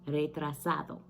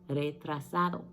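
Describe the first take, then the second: The two takes are said the same way.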